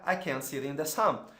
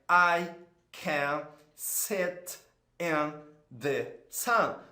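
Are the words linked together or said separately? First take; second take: linked; separate. First: The words run together, linked into one stream. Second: Each word is said separately, without linking. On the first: The speaker calls it right. "O inglês real é" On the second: The speaker calls it wrong. "a gente está tão acostumado a falar isolado"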